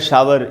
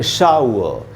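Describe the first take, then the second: First: Said as two full syllables ending in r. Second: Said ending in ow-uh without any r. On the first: The speaker calls it wrong. "Hindi medium में शावर" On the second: The speaker calls it right. "तो हम पढ़ेंगे शाउ"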